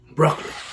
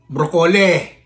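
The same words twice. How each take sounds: First: Broccoli is said with the standard American pronunciation. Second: Broccoli is said with a nonstandard, foreign-sounding pronunciation. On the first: The speaker calls it right. "the real pronunciation for broccoli is broccoli" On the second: The speaker calls it wrong. "I used to pronounce broccoli as broccoli"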